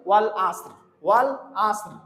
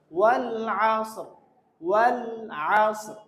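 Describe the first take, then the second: First: Ordinary 'a' opening আসর, no throat sound; common mispronunciation. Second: আসর opened with a throat ayn; correct recitation. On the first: Teacher showing learners' usual mistake, mispronounced. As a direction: say আসর with a simple vowel in place of ayn. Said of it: "এখানে আমরা যে ভুলটা করি". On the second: Teacher showing learners how it must be read, correctly articulated. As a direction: press the first sound of আসর from mid-throat. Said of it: "আমরা তো পড়তে হবে". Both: Shown as a demonstration.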